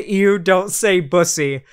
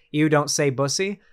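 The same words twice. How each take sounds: First: Slow, louder mock disgust on ew; mock grossed-out. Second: Said in the usual way. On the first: Streamer mimicking a grossed-out chatter, mock disgust. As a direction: ham up a squeamish viewer recoiling. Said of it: "somebody was grossed out by it". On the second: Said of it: "The fact that somebody actually said".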